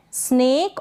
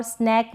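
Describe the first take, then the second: First: स्नेक with long "ay", like "snake"; contrasted pronunciation. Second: स्नैक with open "ae", as in "snack"; contrasted pronunciation. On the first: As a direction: say स्नेक with closed e. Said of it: "स्नेक और स्नैक में difference". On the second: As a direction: say स्नैक with short open vowel. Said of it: "difference होता है". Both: Shown as a demonstration.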